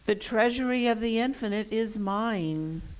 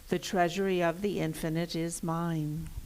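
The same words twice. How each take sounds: First: It is said loudly with lots of energy. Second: It is said in an ordinary speaking voice. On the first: "with much energy this first time" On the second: "in the normal speaking voice"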